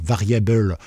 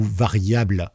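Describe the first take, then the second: First: Teacher showing the English word, "variable" pronounced the English way. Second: Said in the usual way. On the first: Shown as a demonstration. Explaining code keywords to beginners, English pronunciation of "variable". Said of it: "pour variable ou variable en français". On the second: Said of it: "en français".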